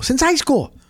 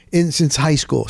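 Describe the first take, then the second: First: Since high school lifted much higher on high; stunned emphasis on Since high school; emphatic repeat. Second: Said in the usual way. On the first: Real, not acted.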